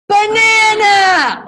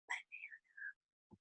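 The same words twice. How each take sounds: First: It is said very loudly, an outside voice. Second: It is said quietly, below talking volume.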